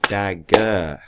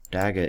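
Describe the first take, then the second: First: "Dagger" in two firm beats, dag... ger; split into syllables. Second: Said in the usual way. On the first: Shown as a demonstration. Teacher sounds out a word for pupils, "Dagger" split in two. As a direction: break "Dagger" clearly after dag. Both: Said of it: "Dagger is two syllables".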